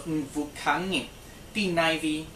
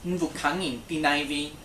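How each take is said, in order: First: Slow, careful teacher model of the phrase; deliberate language-lesson demo. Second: The same phrase again at normal pace; a quicker second model for repeating. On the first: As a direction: say it slowly for the class to repeat. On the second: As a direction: repeat it plainly for practice. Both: Shown as a demonstration.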